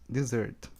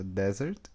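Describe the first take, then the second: First: "dessert" said di-ZERT, stress on the second syllable; "dessert" with a light di- and a stressed -zert; dessert, the sweet. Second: "desert" said DEZ-ert, stress on the first syllable; "desert" with an open e in the first syllable, stressed up front; desert, the dry place. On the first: Teacher models for students the second-stressed "dessert". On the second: Teacher models for students the first-stressed "desert". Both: Shown as a demonstration. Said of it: "Pronúncia".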